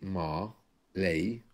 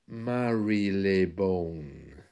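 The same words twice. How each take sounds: First: The word is said shorter with sounds dropped. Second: The word is said slowly with every syllable. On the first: "It looks like it's simply Marylebone" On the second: "say it slowly, the word is actually Marylebone"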